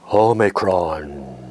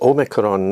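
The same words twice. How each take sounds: First: It is said in a deep, echoey voice. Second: It is said in a normal speaking voice.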